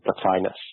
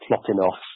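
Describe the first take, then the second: First: It is said with the usual English pronunciation. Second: It is said with a Greek-style pronunciation. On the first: "in English the usual pronunciation is Plotinus" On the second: "in the Greek it would be something like Plotinos"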